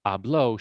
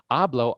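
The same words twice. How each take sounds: First: "Habló" as ah-BLO, final syllable stressed; stress on last syllable. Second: "Hablo" as AH-blo, stressed up front; stress on first syllable. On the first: Teacher giving the past tense, "Habló" stressed at the end. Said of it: "she spoke". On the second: Teacher giving the present tense, "Hablo" stressed on first syllable. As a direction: hit AH in "Hablo". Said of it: "I speak". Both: Shown as a demonstration.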